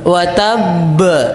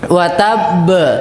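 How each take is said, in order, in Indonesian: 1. Pantulan huruf b di akhir kata dilepaskan dan terdengar ke luar. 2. Pantulan huruf b di akhir kata dilepaskan dan terdengar ke luar.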